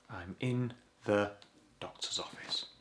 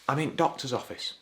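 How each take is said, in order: First: The word 'the' is clearly pronounced after 'in'. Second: The word 'the' is dropped after 'in'.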